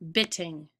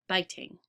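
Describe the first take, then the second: First: The first vowel is short, as in 'bit'. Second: The first vowel is long, as in 'bite'. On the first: The speaker calls it wrong. "So they would say b, it, ing" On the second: The speaker calls it right. "change it from the vowel sound to the vowel name"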